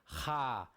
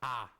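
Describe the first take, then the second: First: The syllable starts with an audible h. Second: The syllable starts with a bare vowel. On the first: The speaker calls it right. "em hebraico não. Então fica Ra" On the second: The speaker calls it wrong. "não fica A. O H no português é mudo"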